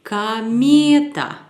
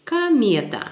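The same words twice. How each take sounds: First: Kameta said slowly, louder, on the stressed syllable me; slow stressed demo. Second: Kameta at normal speed, stress on me. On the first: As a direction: draw out kameta and lean on me. (kameta lent, accent sur me) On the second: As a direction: repeat Kameta, leaning on me. (Kameta, accent sur me) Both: Shown as a demonstration. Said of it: "la prononciation sera".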